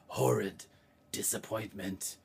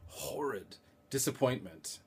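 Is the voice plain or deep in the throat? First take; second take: throaty; plain. First: It is said deep in the throat. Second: It is said in a plain voice.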